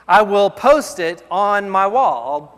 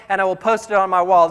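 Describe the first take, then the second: First: Slow, weighty, leaning on post; slow emphasis. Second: Said in the usual way. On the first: Shown as a demonstration. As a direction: stretch it out and stress post.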